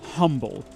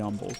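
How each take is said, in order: First: The word begins with an audible H sound. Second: The word begins with a vowel, H silent. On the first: The speaker is a newcomer to the state. The speaker calls it wrong. "they'll always pronounce it humble because they are just imbeciles" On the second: The speaker is a local. The speaker calls it right. "the correct pronunciation is very clearly humble"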